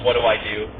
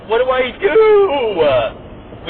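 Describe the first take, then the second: First: Said in the usual way. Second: Put-on high, drawn-out whiny kid plea; panicked kid voice. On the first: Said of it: "I would have yelled". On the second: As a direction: wail it like a lost little kid. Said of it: "he was like".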